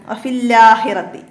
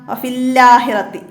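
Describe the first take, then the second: Both takes have the same delivery.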